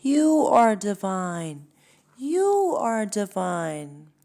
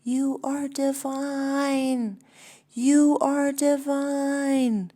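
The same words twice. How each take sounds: First: Slow loud echo, a bit higher; louder slow echoed shout; echo yelling back. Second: Slow, high, booming call; big high divine proclamation; God yelling from a mountaintop. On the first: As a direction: call it back like a crowd echo. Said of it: "all yell back". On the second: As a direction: shout it down from a peak, slow and much higher. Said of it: "God stands on a mountaintop and yells". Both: Acted.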